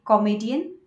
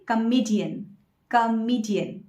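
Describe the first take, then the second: First: Comedian with an open KOM start, KOM-e-di-an; wrong pronunciation. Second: Comedian with a schwa start and long E, kuh-MEE-dee-un; correct pronunciation. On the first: Teacher quizzing viewers with the wrong form, comedian as KOM-ee-dee-un. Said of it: "that is not the correct pronunciation". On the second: Teacher giving viewers the correct form, comedian as kuh-MEE-dee-un. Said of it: "You should say". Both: Shown as a demonstration.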